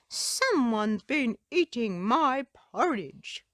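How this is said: It is said in a deep growl.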